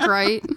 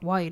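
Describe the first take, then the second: First: The word starts with a clear R sound. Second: The word starts with a W sound. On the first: The speaker calls it right. "I can talk right" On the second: The speaker calls it wrong. "It was my R sound like W's"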